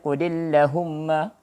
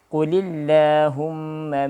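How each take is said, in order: First: The vowel after the l is cut short. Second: The vowel after the l is held long. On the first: The speaker calls it wrong. "jangan baca satu harakat, yang baca Qulillahumma salah" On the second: The speaker calls it right. "tetap dibaca panjang dengan dua harakat"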